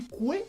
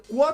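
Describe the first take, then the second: First: Quoi dit « coué »; OI dit oué. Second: Said in the usual way. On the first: Shown as a demonstration. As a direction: finir quoi sur un É, plus doucement. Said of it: "tu dis coué". (« coué » à la québécoise) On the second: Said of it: "quand tu veux dire quoi".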